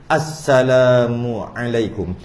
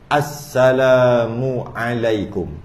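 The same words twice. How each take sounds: The two takes are said the same way.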